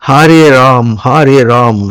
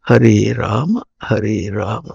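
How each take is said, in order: First: Rama is cut short, ending on the m. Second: Rama is said with its full final vowel. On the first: The speaker calls it wrong. "అన్ని తప్పులే" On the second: The speaker calls it right. "బాగా ప్రసిద్ధమైనటువంటి నామం"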